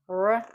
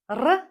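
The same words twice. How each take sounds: First: The R is a smooth untrilled English sound. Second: The R is a tongue-tip sound like Spanish R. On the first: The speaker calls it wrong. "This is not R as in English" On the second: The speaker calls it right. "This is R"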